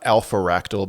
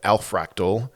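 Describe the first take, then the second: First: The name is split as alpha plus ractal. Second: The name is split as al plus fractal. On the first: The speaker calls it wrong. "Not alpharactal" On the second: The speaker calls it right. "but alfractal"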